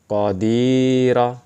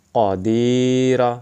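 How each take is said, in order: First: The middle vowel is held long. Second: The same.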